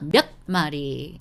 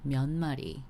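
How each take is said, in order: First: The first word ends with a hard, tense sound. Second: The first word ends softly, blending into the next. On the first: The speaker calls it wrong. "it's not 몇 마리. It's a bit tough" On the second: The speaker calls it right. "We want to say it soft"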